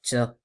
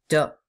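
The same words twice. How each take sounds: First: The t is released with a puff of air. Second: The t is released with no puff of air. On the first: The speaker calls it wrong. "c'est pas ta ... on a tendance à laisser passer un petit peu d'air" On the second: The speaker calls it right. "c'est ta"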